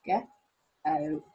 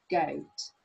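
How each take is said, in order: First: GO-OAT broken into g, oa, t; low, loud, separated sounds of GO-OAT; sounded out. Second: Said in the usual way. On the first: Shown as a demonstration. Teacher finding the O in goat, GO-OAT sounded out. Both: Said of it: "one thing that we've got is our goat".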